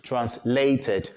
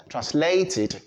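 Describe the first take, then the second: First: "translated" slowly, ending in "ted"; mispronounced -ed ending. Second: "translated" with "tid" as last syllable; correct -id ending. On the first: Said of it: "not translated". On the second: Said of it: "have to pronounce it as translated". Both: Shown as a demonstration.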